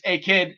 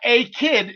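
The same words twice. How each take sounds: First: It is run together as one word. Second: It is said as two separate words. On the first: The speaker calls it right. "It's it's it's like one word" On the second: The speaker calls it wrong. "It's not a kid"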